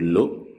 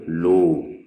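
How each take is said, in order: First: The vowel is short. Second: The vowel is held long. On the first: The speaker calls it wrong. "au lieu de dire lo" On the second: The speaker calls it right. "pour prolonger la damma, on utilise la lettre waw"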